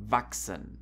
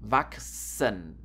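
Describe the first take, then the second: First: Said in the usual way. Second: "Wachsen" slowly split as vak... sen; drawn-out "Wachsen" exposing the k and s; chs as ks. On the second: Shown as a demonstration. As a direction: break "Wachsen" into syllables, k then s. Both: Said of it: "You have to pronounce this like K und S".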